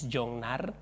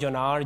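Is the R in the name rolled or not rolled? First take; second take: rolled; not rolled. First: The R in the name is rolled. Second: The R in the name is not rolled. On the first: This is the name's real pronunciation. "The real pronunciation is Jongnar" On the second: This is how other people say the name. "Some people call me"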